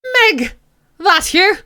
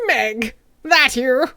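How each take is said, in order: First: Put-on higher, louder Irish old man; put-on Irish character voice; Irish accent. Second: Lightly attempted old character voice; slow, rough first stab at a character; terrible voice attempt. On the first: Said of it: "I'll make him Irish". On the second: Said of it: "No, that's terrible".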